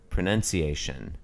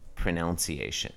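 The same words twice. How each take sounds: First: The second syllable sounds like 'nun'. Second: The second syllable sounds like 'noun'.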